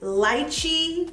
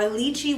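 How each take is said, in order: First: Lychee said LIE-chee; LIE-chee pronunciation. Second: Lychee said LEE-chee; LEE-chee pronunciation. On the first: Listing perfume notes, lychee pronounced LIE-chee. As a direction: say lychee with a first syllable rhyming with "eye". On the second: Offering the other name, lychee pronounced LEE-chee. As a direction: say lychee with a first syllable rhyming with "see". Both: Shown as a demonstration. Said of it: "whatever you wanna call it".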